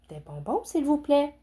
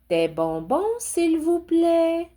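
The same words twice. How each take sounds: First: The request is said at a quieter volume. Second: The request is said at a louder volume.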